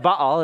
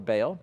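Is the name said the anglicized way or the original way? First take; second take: original; anglicized. First: The name is said the original, non-English way. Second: The name is said the anglicized English way. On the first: The speaker calls it right. "Baal is how you pronounce the name" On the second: The speaker calls it wrong. "That's how we butcher it in English"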